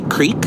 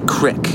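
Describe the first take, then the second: First: It is said with a standard pronunciation. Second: It is said the Eastern Iowa way.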